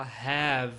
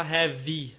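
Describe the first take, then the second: First: "have" ending cleanly on v, no extra vowel; right have. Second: "have" with an added final vowel, like "hévi"; wrong have. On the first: Teacher showing students the correct "have". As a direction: clip "have" off after the v. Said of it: "você fala have". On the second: Teacher showing students the wrong "have". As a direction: say "have" the Brazilian way with an extra i at the end. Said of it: "você não vai falar have". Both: Shown as a demonstration.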